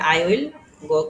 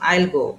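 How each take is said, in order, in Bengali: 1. I এবং will দুটো পূর্ণ শব্দ হিসেবে উচ্চারিত হয়। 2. I এবং will মিলে একটি ছোট সিলেবল হয়ে যায়। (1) "আই উইল গো কে আমরা কি বলবো?" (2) "শর্টকাটে"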